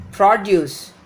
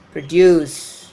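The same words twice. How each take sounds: First: Produce with the stress on PRO; PROduce, strong open first syllable; noun stress. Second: Produce with long, loud -DUCE; proDUCE, second syllable stretched; verb stress. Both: Shown as a demonstration. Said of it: "difference between the pronunciation of the noun and the verb".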